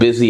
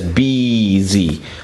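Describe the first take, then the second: First: The first vowel is short, as in bit. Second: The first vowel is long, as in bee.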